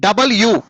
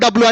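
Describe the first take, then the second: First: The letter name is said as three syllables. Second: The letter name is squeezed into two syllables. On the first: The speaker calls it right. "దీన్ని ఏమన్నా పలకాలా?" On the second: The speaker calls it wrong. "మనం తిక్కగా పలుకుతాం"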